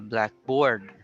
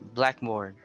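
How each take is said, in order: First: The stress falls on 'board'. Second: The stress falls on 'black'. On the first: "so the stress is on the board" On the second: It is the classroom writing board. "But if it's one word"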